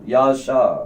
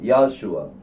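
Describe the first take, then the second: First: The name ends with a short 'sha' sound. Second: The name ends with a 'shua' sound. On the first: Both letters are treated as silent, giving a made-up name. "இந்த ரெண்டு வாவும் சைலண்ட் ஆயிட்டுனா" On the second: Only one of the two letters is treated as silent. "இந்த வா வந்து சைலண்ட் அப்படின்னு சொன்னா"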